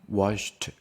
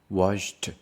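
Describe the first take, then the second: No difference in how they are said.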